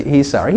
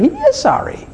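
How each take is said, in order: First: Said in the usual way. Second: "is" leaps high in pitch; stress on IS. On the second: Acted. Preacher vouching for the new self, stress on "is". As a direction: hit "is" high to insist it is true. Insists the apology is genuine.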